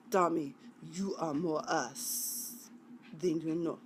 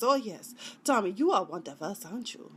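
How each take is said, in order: First: Attempted Russian accent. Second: Put-on quick, off-target Serbian accent; attempted Serbian accent. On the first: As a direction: put on a measured Russian accent. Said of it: "I can usually do Russian accent". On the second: Sidekick telling Tommy he's one of them, shaky-aim Serbian accent.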